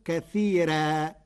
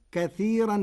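First: "كثيرا" slowly as kathiiraa with a thin r; light ra. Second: Said in the usual way. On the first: Shown as a demonstration. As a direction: keep the r and final aa of "كثيرا" light, drawn out. ("كثيرا" بترقيق الراء على مهل) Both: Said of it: "بترقيق الراء".

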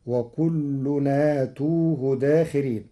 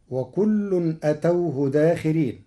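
First: أتوه said "aatuuhu"; slow verse, lengthen both vowels of أتوه; long hamza, damma on ta. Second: أتوه with short a, "atawhu"; recited verse, أتوه as a-taw-hu; first reading of أتوه. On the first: Teacher shows Warsh's reading, أتوه as aa-tuu-hu. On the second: Teacher recites before Warsh's change, أتوه as atawhu. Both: Shown as a demonstration. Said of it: "بمد الهمز وضم التاء".

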